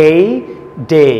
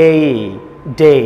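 No difference in how they are said.

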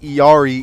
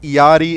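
First: The name is said with an English pronunciation. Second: The name is said with a Spanish pronunciation. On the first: "Iari in English" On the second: "it's Iari in Spanish"

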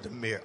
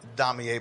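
First: It is said with two syllables. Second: It is said with three syllables. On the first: This is the true way to say it. The speaker calls it right. "but it's really Demir" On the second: This is the everyday way people say it. The speaker calls it wrong. "We pronounce it Damier"

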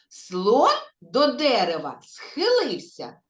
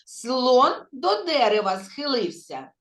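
First: The phrase is spoken slowly. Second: The phrase is spoken a little faster. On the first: "Спочатку повільно" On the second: "А тепер трошки швидше"

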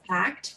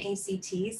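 First: It is pronounced as the single word act. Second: It is spelled out as three separate letters. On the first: The speaker calls it right. "which is said as ACT" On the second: The speaker calls it wrong. "rather than ACT"

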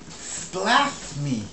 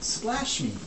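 First: A sound in 'splash' is said in a childlike way. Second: A sound in 'splash' is said in the standard way. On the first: The speaker calls it wrong. "Before you were saying" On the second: The speaker calls it right. "You have to say"

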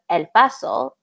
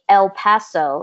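First: The name is pronounced with Spanish sounds. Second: The name is pronounced with English sounds. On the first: It honors the city's true name and culture. The speaker calls it right. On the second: It disrespects the community's history and language. The speaker calls it wrong.

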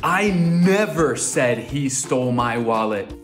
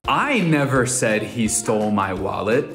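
First: The word "never" carries the main stress. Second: The word "I" carries the main stress. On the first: It was never said at any time. "Agora tô dizendo que eu nunca, jamais, never" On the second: Someone else said it. "Colocando ênfase na I"

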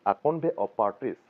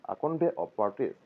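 Both takes have the same delivery.

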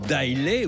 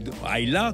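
First: Islay is said with French spelling sounds. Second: Islay is said the Scottish way.

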